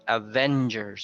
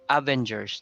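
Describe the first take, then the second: First: The stress is on the second syllable. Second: The stress is not on the second syllable. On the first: The speaker calls it right. "the stress is on the second syllable" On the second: The speaker calls it wrong. "it's not uh, Avengers"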